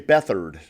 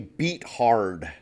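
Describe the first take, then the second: First: The name sounds like Beth plus ard. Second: The name sounds like beat plus hard. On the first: This is how the player's own people say it. "but they say Bethard" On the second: This is the name as written. "they pronounce it differently, but his name is C J Beathard"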